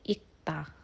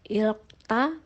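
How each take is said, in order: First: No L sound is pronounced before the K. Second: An L sound is pronounced before the K. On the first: The speaker calls it right. "tapi ikta" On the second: The speaker calls it wrong. "ini bacanya bukan ilkta"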